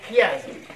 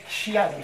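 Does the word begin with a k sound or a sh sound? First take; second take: k sound; sh sound. First: The word begins with a k sound. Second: The word begins with a sh sound. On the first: The speaker calls it right. "c'est chiasme" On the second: The speaker calls it wrong. "que certains prononcent malencontreusement chiasme"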